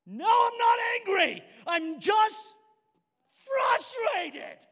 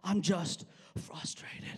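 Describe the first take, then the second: First: High, full-volume acted shout of denial; angry outburst. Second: Slow, half-whispered, held-in frustration; strained self-calming. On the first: Denying anger to his best friend, furious shout. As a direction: explode in loud, high-pitched protest. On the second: Retold or imitated. Trying to calm himself before his friend, strained restraint. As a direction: force it out slowly as if holding back anger. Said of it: "I'm trying to calm myself".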